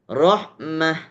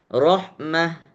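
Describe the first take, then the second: No difference in how they are said.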